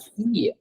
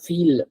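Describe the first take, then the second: First: The word ends with a y sound. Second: The word ends with an l sound. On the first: The speaker calls it right. "it's la fille" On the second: The speaker calls it wrong. "It's not feel"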